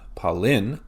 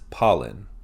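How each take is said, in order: First: The stress is on the second syllable. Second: The stress is on the first syllable. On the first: The speaker calls it wrong. "It's not pollen" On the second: The speaker calls it right. "we emphasize that first syllable"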